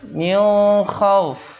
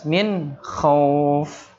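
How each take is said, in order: First: The n is blurred with a nasal hum. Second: The n is pronounced clearly without nasal blurring. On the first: The speaker calls it wrong. "Antara dengung dan samar-samar" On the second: The speaker calls it right. "Bacanya jelas"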